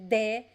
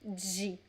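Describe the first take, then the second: First: It starts with a plain d and an 'eh' vowel. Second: It starts with a 'j' sound and an 'ee' vowel. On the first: This is one regional variant. "Some people would say de" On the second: This is the most common pronunciation. "the most common pronunciation is G"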